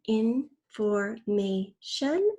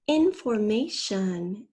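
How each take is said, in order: First: "information" very slow, four separate beats; syllable by syllable. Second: Said in the usual way. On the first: Shown as a demonstration. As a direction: stretch and part each syllable of "information", rising at the end. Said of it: "Fourth syllable is shun". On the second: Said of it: "First, say the whole word".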